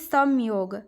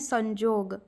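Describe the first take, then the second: First: The middle consonant is a y sound. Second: The middle consonant is a j sound. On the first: This is the Hindi pronunciation. "जैसे कि समयोग" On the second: This is the Odia pronunciation. "तो इसको हम उड़िया में क्या बोलते हैं संजोग"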